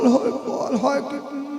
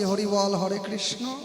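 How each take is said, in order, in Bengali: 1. কথাগুলো অস্পষ্ট, শব্দগুলো জড়ানো। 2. কথাগুলো স্পষ্ট ও পরিষ্কারভাবে উচ্চারিত। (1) "মুখে দাঁত নাই, শরীরে শক্তি নাই ... এরকম করবেন" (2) "এখন যেমন আমি ক্লিয়ার বলতে পারছি"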